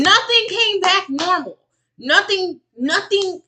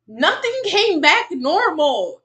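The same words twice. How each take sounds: First: High, loud, insistent protest; emphatic contradiction. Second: Slow, loud, high and emphatic; exasperated insistence. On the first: Streamer contradicting a woman's normal test results, emphatic. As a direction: cut in loudly and flatly refuse the claim. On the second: Streamer repeating it so it sinks in, exasperated. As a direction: spell it out loudly, every word stretched. Repeats the contradiction more slowly. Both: Real, not acted.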